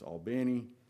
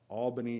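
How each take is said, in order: First: It is said the local Georgia way. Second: It is said the usual, non-local way. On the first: The speaker calls it right. "We have our own way" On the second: The speaker calls it wrong. "It's not Albany"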